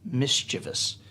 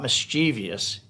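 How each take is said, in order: First: The word is said with three syllables. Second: The word is said with four syllables. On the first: The speaker calls it right. "it's mischievous" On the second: The speaker calls it wrong. "The word is not mischievous"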